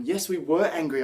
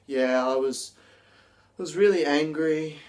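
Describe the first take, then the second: First: Raised, emphatic angry claim; genuinely angry. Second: Deflated, unconvincing claim of anger; depressed and slumped. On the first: Teacher demos a believable angry statement, raised and emphatic. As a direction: sell it like you truly mean the anger. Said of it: "But if you're saying". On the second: Teacher demos an unconvincing angry claim, deflated. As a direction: say you're angry with no energy at all. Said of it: "your body language is just slumped". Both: Shown as a demonstration.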